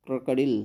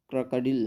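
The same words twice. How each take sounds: The two takes are said the same way.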